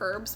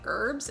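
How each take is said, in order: First: The word starts with an h sound. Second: The word starts without an h sound. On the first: The speaker calls it right. "there's an H in the front" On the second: The speaker calls it wrong. "a lot of people say herbs"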